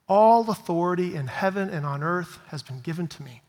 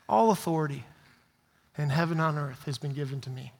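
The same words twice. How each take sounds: First: It is said with loud, excited energy. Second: It is said in a calm, plain way. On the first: The speaker is full of enthusiasm. "I like to think that he got all excited" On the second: The speaker is simply stating it. "He might have just said this"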